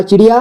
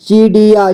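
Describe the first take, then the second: First: Said in the usual way. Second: Beginner's reading of "चिड़िया" as chi-ri-yaa; sounded out by syllable. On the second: Shown as a demonstration. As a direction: stretch each syllable of "चिड़िया". Teacher sounds out, then reads whole.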